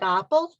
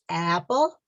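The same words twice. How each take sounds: First: Apple with an open ah like British English. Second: Apple with a flat a as in cat, American style. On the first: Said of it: "I know that in British English". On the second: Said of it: "but in American English, it's apple". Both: Shown as a demonstration.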